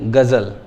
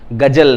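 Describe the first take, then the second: First: The middle consonant is a 'z' sound. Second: The middle consonant is a 'j' sound. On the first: The speaker calls it right. "ये चीज बोली जाती है" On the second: The speaker calls it wrong. "गजल नहीं"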